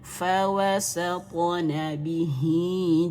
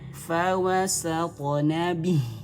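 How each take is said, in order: First: The final vowel of bihi is lengthened. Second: The final vowel of bihi is dropped. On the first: The reading continues into the next word. "kalau disambung maka bacanya" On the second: The reading stops at this word. "kalau diwakafkan maka dibacanya menjadi berhenti dan tak perlu dipanjangkan"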